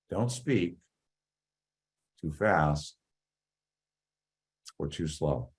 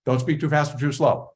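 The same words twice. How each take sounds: First: Drawn out, low and soft, long gaps between phrases; too slow. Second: Rushed demo of speaking too fast. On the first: Speaking coach shows students a dragging pace, too slow. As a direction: plod through it with exaggerated long pauses. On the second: Speaking coach shows students a rushed pace, too fast. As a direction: rattle the phrase off quickly, no pauses. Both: Shown as a demonstration.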